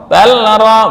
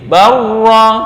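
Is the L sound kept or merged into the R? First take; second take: kept; merged. First: The L is pronounced before the R. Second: The L merges into a doubled R. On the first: The speaker calls it wrong. "bukan barra atau balra, bukan" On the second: The speaker calls it right. "tapi barra"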